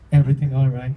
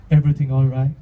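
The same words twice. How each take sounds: First: Same waiter check-in. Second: Imitating waiter check-in. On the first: Retold or imitated.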